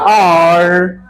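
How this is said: It is said American style, with an r sound.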